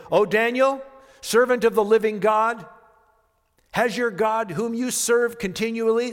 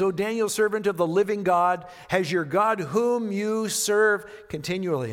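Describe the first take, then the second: First: High, loud anguished calling out to Daniel; anguished cry. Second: Said in the usual way. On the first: A narrator's reading. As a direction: cry out in desperate fear for his friend. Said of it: "He cried out in a tone of anguish". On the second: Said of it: "notice he says".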